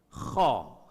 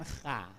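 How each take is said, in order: First: The kh sound is heavy with a dark vowel. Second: The kh sound is light with a bright vowel. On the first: The speaker calls it right. "Karena dia huruf tebal. Mufakham namanya" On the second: The speaker calls it wrong. "Bukan kha"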